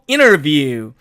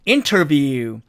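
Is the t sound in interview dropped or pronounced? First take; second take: dropped; pronounced. First: The t after n is dropped. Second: The t after n is clearly pronounced. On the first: "트가 사라지니까 결국" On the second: "사전식 발음은"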